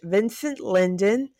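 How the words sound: The name is said with an English pronunciation. "I'm going to pronounce it English"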